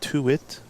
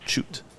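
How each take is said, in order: First: The name begins with a plain t sound. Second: The name begins with a ch sound. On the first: The speaker calls it wrong. "You would think it's Tuit" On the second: The speaker calls it right. "but it's pronounced choot"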